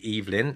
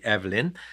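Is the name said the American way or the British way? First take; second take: British; American. First: The name is said with a British pronunciation. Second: The name is said with an American pronunciation. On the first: "The British say Evelyn" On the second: "Americans sometimes say Evelyn"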